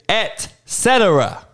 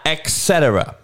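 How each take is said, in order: First: It begins with an 'et' sound. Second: It begins with an 'eks' sound. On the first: The speaker calls it right. "It is et cetera. It's actually two words" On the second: The speaker calls it wrong. "It's not X. It's not et cetera"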